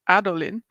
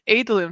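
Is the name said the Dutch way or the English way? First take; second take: Dutch; English. First: The name is said with Dutch sounds. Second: The name is said with English sounds. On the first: The speaker calls it wrong. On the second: The speaker calls it right.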